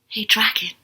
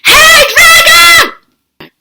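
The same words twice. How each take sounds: First: It is whispered very softly. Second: It is shouted very loudly.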